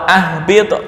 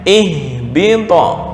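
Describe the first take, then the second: First: The word begins with an a vowel. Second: The word begins with an i vowel. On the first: The speaker calls it wrong. "atau ahbito, nggak boleh" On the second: The speaker calls it right. "Dibaca kasrah... hamzahnya dibaca kasrah"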